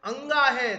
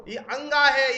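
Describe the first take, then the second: First: अंगा said louder and firm; stress on अंगा. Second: अंगा said louder, as the correct reading; stress on अंगा. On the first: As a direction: repeat अंगा with a firm fall. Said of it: "ध्यान रखना दोस्तों". (अंगा पर ज़ोर) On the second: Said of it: "इसको या नहीं पढ़ते हैं". (अंगा पर ज़ोर देकर सही उच्चारण) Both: Shown as a demonstration.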